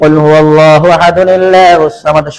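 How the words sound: It runs 'ahad' straight into 'allahus samad'. "শুদ্ধ"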